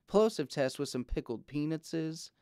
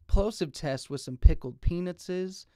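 First: The pops carry a weak low bass thump. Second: The pops carry a strong low bass thump. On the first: Sound below 155 Hz is cut. "155 Hz high pass filter" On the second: No low-cut filter is applied. "Now this is in flat mode"

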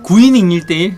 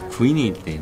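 First: The phrase is said loudly. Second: The phrase is said quietly. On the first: The speaker calls it wrong. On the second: The speaker calls it right.

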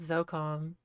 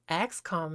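First: The name begins with a 'z' sound. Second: The name begins with the sound 'ex'. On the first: The speaker calls it wrong. "not ZOCOM" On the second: The speaker calls it right. "X COM, not ZOCOM"

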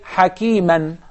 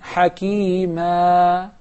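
First: It ends with an n sound. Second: It ends on a long vowel held two counts. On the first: The speaker calls it wrong. "So I don't say hakiman" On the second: The speaker calls it right. "I prolong it harakatayn"

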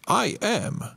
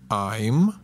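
First: Two full words are said separately. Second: The words merge into one short syllable. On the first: "I am oznacza ja jestem" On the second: "W skrócie będziemy je wymawiać I'm"

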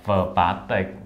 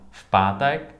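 First: The v is said with its own vowel, separately. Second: The v is linked directly onto the next word. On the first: The speaker calls it wrong. "Không phải là vờ pátek" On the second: The speaker calls it right. "Chứ không phải là vờ"

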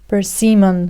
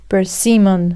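Both takes have the same delivery.

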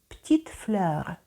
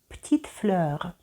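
No difference in how they are said.

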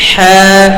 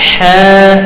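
The two takes are said the same way.

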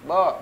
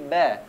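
First: The letter is said heavy, with a darkened vowel. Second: The letter is said light, with a clear vowel. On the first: The speaker calls it wrong. "huruf ba jangan ditebalkan" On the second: The speaker calls it right. "Tapi ba"

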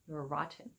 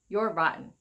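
First: The T in rotten is clearly pronounced. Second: The T in rotten is skipped or silent. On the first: "But other people might say" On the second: "we have something like a soft or silent T, so it's kind of like skipping the T"

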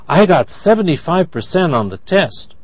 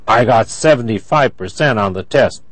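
First: The voice sounds happy. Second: The voice sounds angry. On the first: The speaker is pleased with the score. "That's happy" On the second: The speaker is upset about the score. "That's angry"

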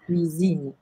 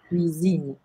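First: The middle consonant is a buzzing Z sound. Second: The middle consonant is a buzzing Z sound.

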